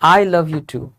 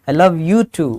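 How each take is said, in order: First: The word I carries the strongest stress. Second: The word you carries the strongest stress. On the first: The speaker also loves the person, like someone else does. "मैं भी तुमसे प्यार करता हूँ" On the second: The speaker loves this person as well as others. "मैं तुमसे भी प्यार करता हूँ"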